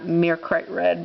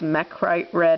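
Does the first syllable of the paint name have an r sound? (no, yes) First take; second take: yes; no. First: The first syllable has an r sound. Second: The first syllable has no r sound. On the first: The speaker calls it wrong. "not Mercrite Red" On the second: The speaker calls it right. "it's actually pronounced Mecrite Red"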